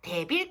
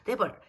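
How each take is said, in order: First: It is said with a Korean accent. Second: It is said with an English accent. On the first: "이렇게 익숙한 발음으로" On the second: "이게 아니라"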